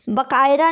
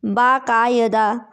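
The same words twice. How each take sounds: First: बाकायदा said as "bakaida", short first a, i before da; the wrong form बाकायदा, read quickly as bə-kai-da; bə-kai-da, the incorrect version; wrong spelling read out. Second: बाकायदा said slowly and clearly as baa-ka-ya-da; बाकायदा, slow careful baa-ka-ya-da; correct form, slowly. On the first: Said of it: "नहीं होता है". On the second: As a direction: spell out बाकायदा syllable by syllable, long first aa. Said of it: "ये बाकायदा होता है". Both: Shown as a demonstration.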